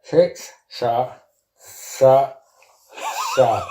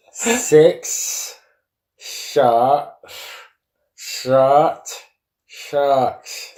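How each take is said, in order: First: Tongue held, words mangled; holding tongue with fingers. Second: Slow mangled words, tongue held; holding tongue with fingers. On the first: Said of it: "you're gonna have to take your mouth out". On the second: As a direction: say it pinching the tongue. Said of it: "I'll start again". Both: Real, not acted.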